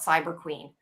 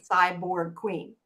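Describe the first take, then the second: First: The first word is slurred, sounding like cyber. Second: The first word is said slowly and very carefully. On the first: The speaker calls it wrong. "half the time when I say that, it comes out Cyber Queen" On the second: The speaker calls it right. "overpronounce it"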